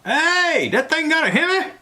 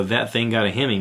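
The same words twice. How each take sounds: First: High, loud imitation of a commercial yell. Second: Said in the usual way. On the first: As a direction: yell it out like from a car window. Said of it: "he'd lean out the window and yell out".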